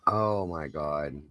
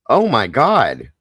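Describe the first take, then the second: First: Soft, slow, stunned murmur; hushed disbelief. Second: Slow, loud, high shocked cry of disbelief; shocked gasp. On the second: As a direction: blurt it out, stunned and horrified. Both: Real, not acted. Reacting to a horrifying story.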